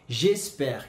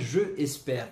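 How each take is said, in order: First: The vowel of je is dropped and merged. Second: The vowel of je is fully pronounced. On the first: The speaker calls it right. "e sim j'espère" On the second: The speaker calls it wrong. "a maneira correta de dizer não é je espère"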